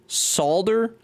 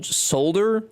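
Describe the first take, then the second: First: "Solder" said as "sawl-der", higher; other pronunciation. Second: "solder" said as "sole-der", higher; American pronunciation. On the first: Showing the other way to say the word. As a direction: contrast with a rounder "Solder". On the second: Showing how Americans pronounce the word. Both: Shown as a demonstration. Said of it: "Americans pronouncing".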